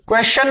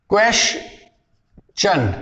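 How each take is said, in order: First: क्वेश्चन run together as one quick word; wrong question. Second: क्वेश्चन very slowly split, KWESH, pause, CHUN; correct question. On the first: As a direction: say क्वेश्चन without parting its syllables. (क्वेश्चन, गलत उच्चारण का नमूना) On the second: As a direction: draw out क्वेश्चन in two parts, sh then ch. (क्वेश्चन, धीरे तोड़कर "क्वेश-चन") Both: Shown as a demonstration. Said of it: "क्वेश्चन नहीं होता".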